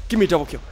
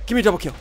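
Both takes have the same delivery.

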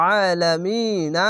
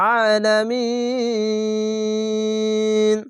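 First: আলামিনা drawn out moderately, ending on open "na"; slow আলামিনা without a stop on the n; one-alif stretch. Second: আলামিন chanted higher with "mi" held very long; slow recitation of আলামিন with extended final syllable; three-alif stretch. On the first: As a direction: briefly hold "aa" and "mi" in আলামিনা. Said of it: "এক আলিফ টেনে পড়বেন". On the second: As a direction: stretch the end of আলামিন, stopping on n. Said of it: "তিন আলিফ টেনে পড়বেন". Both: Shown as a demonstration.

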